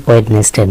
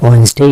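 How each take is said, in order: First: ওয়েডনেসডে spelled out, "wed-nes-day"; mispronounced Wednesday. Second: ওয়েডনেসডে in two syllables, "wens-day"; silent D. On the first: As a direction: sound the D and every syllable of ওয়েডনেসডে. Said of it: "এর উচ্চারণ ওয়েডনেসডে না". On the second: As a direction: drop the first D in ওয়েডনেসডে. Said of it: "এর উচ্চারণ হচ্ছে ওয়েডনেসডে". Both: Shown as a demonstration.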